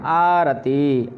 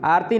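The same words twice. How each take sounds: First: आरती drawn out slowly as आ-र-ती, full र; आरती, each syllable spoken fully; careful pronunciation. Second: आरती clipped to आर्ती, र swallowed; आरती rushed as आर्ती; wrong pronunciation. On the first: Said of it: "शब्द क्या है". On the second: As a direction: show the wrong way: आरती squashed to two syllables. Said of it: "आरती नहीं है". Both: Shown as a demonstration.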